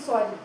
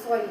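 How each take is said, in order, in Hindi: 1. यह शब्द गर्व और अकड़ भरे लहजे में बोला गया है। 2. यह शब्द गुस्से भरे लहजे में बोला गया है। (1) "ईगो दिखा करके सॉरी" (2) "सॉरी गुस्से में"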